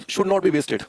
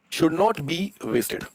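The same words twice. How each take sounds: First: Said in the usual way. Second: Very slow, word by word; slow dictation. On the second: Shown as a demonstration. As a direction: draw each word out for note-takers. Repeats slowly for those writing. (धीरे-धीरे, शब्द-दर-शब्द लिखवाते हुए)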